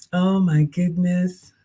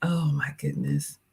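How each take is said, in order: First: Said in the usual way. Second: Breathless whispered gasp; awed whisper. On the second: Real, not acted. Streamer overwhelmed by viewer's gift, whispering.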